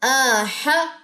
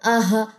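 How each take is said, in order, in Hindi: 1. 'h' की ध्वनि साफ़ और स्पष्ट है। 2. 'h' की ध्वनि पतली और कमज़ोर है। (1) "हा को वाज़ा करना है" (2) "इसको बारीक नहीं पढ़ना"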